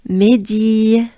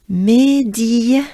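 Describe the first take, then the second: The two takes are said the same way.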